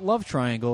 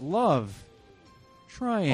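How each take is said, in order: First: The two words run together without a pause. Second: There is a pause between the two words. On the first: It is the ordinary phrase for a romantic triangle. The speaker calls it wrong. "Not Love Triangle" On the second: The title has a comma between the two words. The speaker calls it right. "Love, comma, triangle"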